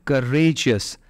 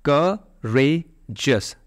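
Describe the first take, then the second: First: Said in the usual way. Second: करेजियस slowly in three separate beats, ka-re-jius; syllable by syllable. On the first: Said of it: "इस तरह से". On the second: Shown as a demonstration. Teacher counting three syllables, करेजियस slowly broken apart. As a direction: pause between each syllable of करेजियस. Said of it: "तीन syllable हो गए".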